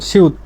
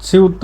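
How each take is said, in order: Both takes have the same delivery.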